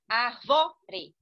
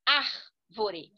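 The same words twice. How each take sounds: First: Arvore wrongly stressed as ar-VÓ-re, loud; stress on the penultimate syllable. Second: Árvore stressed as ÁR-vo-re, loud; stress on the first syllable. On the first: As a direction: punch VO in arvore, then drop. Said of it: "Se fosse na penúltima". (arvore com a tônica forte no VO) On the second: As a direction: hit AR hard in árvore, then let go. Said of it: "Como é na antepenúltima". (árvore com a tônica forte no AR) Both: Shown as a demonstration.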